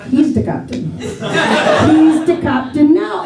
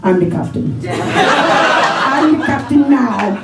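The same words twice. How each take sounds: First: Deflated pirate line. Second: Movie pirate line. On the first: Hat stolen, echoing the pirate line. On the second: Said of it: "What's up with the Captain's hat?". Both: Retold or imitated.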